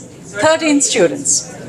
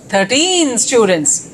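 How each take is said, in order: First: Thirteen is stressed on its first syllable. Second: Thirteen is stressed on its second syllable. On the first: The speaker calls it right. "Then it becomes thirteen students" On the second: The speaker calls it wrong. "we don't say thirteen students"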